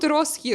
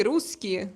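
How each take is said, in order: First: Русский said with an o, as "rosski"; mispronounced word. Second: Русский said with an oo, as "russkie"; corrected pronunciation. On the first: Viewer's misspelt word shown as the wrong one, русский as "rosski". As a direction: say русский wrongly, first vowel as o. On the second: Streamer correcting a viewer's word, русский as "russkie". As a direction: say русский properly, first vowel as oo. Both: Shown as a demonstration. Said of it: "not русский".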